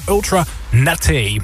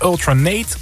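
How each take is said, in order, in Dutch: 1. De laatste e van Nate wordt uitgesproken. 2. De laatste e van Nate is stil. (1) "er staat een accent aigu op de E"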